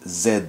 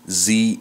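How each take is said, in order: First: The letter is said with a French accent. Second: The letter is said with an American accent. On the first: "and in French it's Z" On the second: "Z in U S American English"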